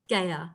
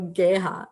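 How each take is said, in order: First: The name is said with no H sound. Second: The name is said with an H sound. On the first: This is the form adopted in Australia. "I just made it into a silent H" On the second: This is how it was pronounced in India. "they said Geha"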